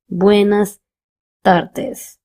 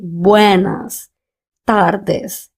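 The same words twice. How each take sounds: First: The sounds are slurred with a barely open mouth. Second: Each sound is clear with a wide-open mouth. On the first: The speaker calls it wrong. "and not something like" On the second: The speaker calls it right. "pronounce each and every letter clearly with an open mouth"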